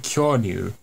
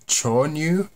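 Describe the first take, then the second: First: The word begins with a 'ky' sound. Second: The word begins with a 'ch' sound. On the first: The speaker calls it right. "but it's actually Kyonyu" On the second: The speaker calls it wrong. "I definitely said Chonyu in that clip"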